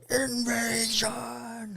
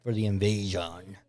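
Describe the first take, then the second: First: Slow, high, drawn-out proclamation; dramatic announcement. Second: Said in the usual way. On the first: Shown as a demonstration. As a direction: stretch out invasion grandly.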